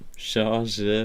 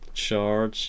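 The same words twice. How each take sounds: First: It is said with a French pronunciation. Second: It is said with an English pronunciation. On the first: The speaker calls it right. "you say charge as like a kind of a French word" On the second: The speaker calls it wrong. "in German obviously you don't pronounce it charge"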